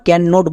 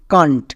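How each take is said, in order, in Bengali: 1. এটি দুটি আলাদা পূর্ণ শব্দ হিসেবে বলা হয়। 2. এটি একটি সংকুচিত শব্দ হিসেবে বলা হয়। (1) "ক্যান নট বলবো না" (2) "একসঙ্গে উচ্চারণ করব কান্ট"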